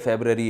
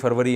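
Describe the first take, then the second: First: It is said the English way, as february. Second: It is said the Urdu way, as farvari. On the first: "लेकिन English में जनवरी है, फेबररी है" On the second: "Urdu में जनवरी फरवरी है ना"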